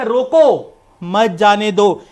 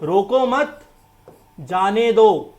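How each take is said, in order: First: Stressed "रोको", break, then "मत जाने दो" run together; group मत with जाने दो, break after रोको; pause after रोको. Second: "रोको मत," said together, pause, then "जाने दो"; group मत with रोको, break before जाने; pause after मत. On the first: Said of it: "punctuation से चेंज करना चाहूं". ("रोको" पर ज़ोर देकर रुकें, फिर "मत जाने दो" एक साथ) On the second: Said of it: "punctuation के बिना कुछ भी हो सकता". ("रोको मत" एक साथ, रुककर "जाने दो") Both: Shown as a demonstration.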